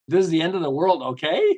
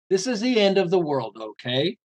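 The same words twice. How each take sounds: First: The voice rises at the end. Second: The voice falls at the end.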